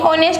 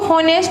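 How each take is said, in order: First: The word begins directly with a vowel sound. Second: The word begins with an audible h sound. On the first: The speaker calls it right. "ऑनेस्ट बोला जाता है" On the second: The speaker calls it wrong. "इसको हॉनेस्ट नहीं"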